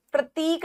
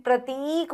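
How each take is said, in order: First: प्रतीक as 'pra-tik'; short i. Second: प्रतीक as 'pra-teeek'; long ee. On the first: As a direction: clip the 'ti' in प्रतीक. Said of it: "प्रतीक नहीं". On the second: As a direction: stretch the 'tee' in प्रतीक. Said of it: "बड़ी ई आएगी". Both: Shown as a demonstration.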